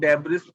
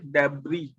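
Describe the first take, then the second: First: The word ends with an s sound. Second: The word ends without an s sound. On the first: The speaker calls it wrong. "हो सकता है आप इसे डेब्रिस पढ़ दें" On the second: The speaker calls it right. "हम बोलेंगे इसे डेब्री, एस साइलेंट है"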